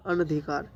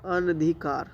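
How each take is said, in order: Both takes have the same delivery.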